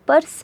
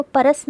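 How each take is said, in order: First: पर्स as one syllable, "pars"; no vowel after r in पर्स; half-sounded r. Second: परस in two syllables, "pa-ras"; full r with its vowel in परस; wrong full-vowel reading. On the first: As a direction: run r straight into s in पर्स. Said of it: "पर्स पढ़ा जाएगा". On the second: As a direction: put a short vowel between r and s in परस. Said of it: "इसलिए इसको परस ना पढ़कर". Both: Shown as a demonstration.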